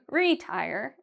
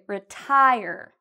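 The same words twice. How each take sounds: First: The stress is on the first syllable. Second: The stress is on the second syllable. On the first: The speaker calls it wrong. "We don't say retire" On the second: The speaker calls it right. "we say retire. I say tie a little bit louder and longer"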